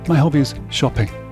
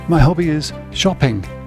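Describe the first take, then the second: First: The final consonant sounds are cut off. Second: The final consonant sounds are fully pronounced.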